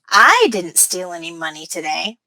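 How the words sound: The word I carries the main stress. Someone else stole the money. "By putting stress on I"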